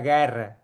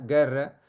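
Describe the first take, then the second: First: The E vowel is much more open. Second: The E vowel is less open. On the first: This is how it is said in Valencia. "en Valencia sería guerra ... es mucho más abierto" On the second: This is how it is said in Barcelona. "esto sería la pronunciación en Barcelona"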